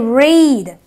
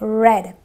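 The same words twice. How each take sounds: First: The vowel is a long ee sound. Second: The vowel is a short eh sound. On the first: It is the present tense. "it is not the short E, it is the long E, so I say read" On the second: It is the past tense. "but otherwise it is a read"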